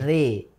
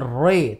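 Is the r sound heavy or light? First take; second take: light; heavy. First: The r sound is light and thin. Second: The r sound is heavy and full. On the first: The speaker calls it right. "pelafatannya tipis" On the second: The speaker calls it wrong. "bukan re"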